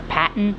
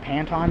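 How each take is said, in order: First: The last syllable sounds like 'ton', without 'o'. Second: The last syllable sounds like 'tone', with 'o'. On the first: This is the pronunciation reported online. "the name is actually pronounced Pan, Patton" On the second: This is the speaker's own pronunciation. "I just call it Pantone because it sounds more professional"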